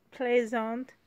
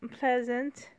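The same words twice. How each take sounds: First: "Pleasant" said the French way, plei-ZAHN with a nasal end; French pronunciation of Pleasant. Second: Said in the usual way. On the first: Shown as a demonstration. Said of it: "I have a French accent going on". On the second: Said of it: "as Pleasant is French".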